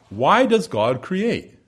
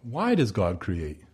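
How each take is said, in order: First: A deliberate, drawn-out question; slow question. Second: A quiet, reflective repeat; softer echo. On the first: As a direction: ask it slowly and fully, stressing why. Preacher poses rhetorical question. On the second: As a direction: repeat the question slow and lower, as if pondering. Question repeated to linger. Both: Acted.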